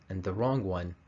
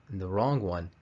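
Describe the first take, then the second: Both takes have the same delivery.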